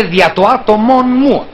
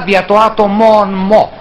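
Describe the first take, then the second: First: «μου» said with clear ου; plain μου. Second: «μου» said as «μο», narrow o; μο with omicron. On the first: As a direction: normal «μου» as in standard Greek. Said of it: "δεν έλεγε δηλαδή ποτέ". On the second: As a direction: swap ου for o in «μο». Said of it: "Μο με όμικρον". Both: Shown as a demonstration.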